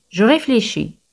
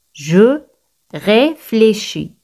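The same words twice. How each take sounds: First: Said in the usual way. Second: "Je ... réfléchis", slow, with a pause after Je; slow demonstration. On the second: Shown as a demonstration. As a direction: draw out "réfléchis" slowly, separated from "Je". Teacher models phrase word by word.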